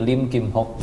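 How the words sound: The name is read with Hokkien pronunciation. "kalau pakai logat Hokkien jadi Lim Kim Hok"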